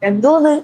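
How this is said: The word is said lightly and easily. This is how people speak in the capital region. "അത്ര easy ആയിട്ടാ സാധനം പോകുന്നത്"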